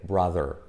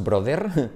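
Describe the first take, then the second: First: BROTHER with an "ah" vowel, "bra-der"; correct BROTHER. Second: BROTHER with a Spanish O, "broder"; wrong BROTHER. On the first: Teacher modelling the right sound, BROTHER as "brather". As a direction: say BROTHER low, with English R. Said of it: "sino bra". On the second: Teacher showing the mistake, BROTHER mispronounced "broder". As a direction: say BROTHER as Spanish "bro-DER". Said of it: "no es brother". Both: Shown as a demonstration.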